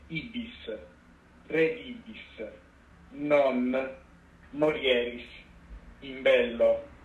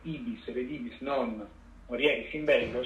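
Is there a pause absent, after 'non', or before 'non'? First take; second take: absent; after non. First: It is said flatly without a telling pause. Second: The pause comes right after 'non'. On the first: The prophecy stays ambiguous. "lei rispondeva senza intonazione" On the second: You will go, not return, and die in battle. "cioè andrai, non tornerai perché morirai in battaglia"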